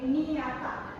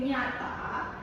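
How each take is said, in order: First: It begins with 'n' followed by an 'i' sound. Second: It begins with one palatal 'ny' sound. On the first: The speaker calls it wrong. "they are saying niata" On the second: The speaker calls it right. "Instead of saying nyata"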